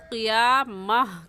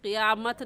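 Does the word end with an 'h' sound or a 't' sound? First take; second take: h sound; t sound. First: The word ends with a soft h sound. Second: The word ends with a t sound. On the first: The speaker calls it right. "वक़फ़ करते हैं तो वो हा बन जाती है, तो क़ियामह कहेंगे" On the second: The speaker calls it wrong. "क़ियामत नहीं कहेंगे"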